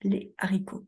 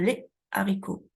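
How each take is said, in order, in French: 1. Une pause sépare les de haricots. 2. Une pause sépare les de haricots.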